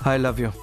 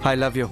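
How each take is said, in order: First: It is said weakly and listlessly. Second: It is said harshly and aggressively. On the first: It sounds like there is no feeling. "మరీ నీరసంగా చెప్తున్నారు sir" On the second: It sounds like a threat. "కొడతారా ఏంటి?"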